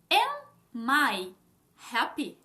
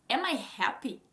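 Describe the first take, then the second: First: Slow, each word set apart; word-by-word demo. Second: Said in the usual way. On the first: Shown as a demonstration. Teacher building an English question for learners, word by word. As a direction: lay out the question one word at a time.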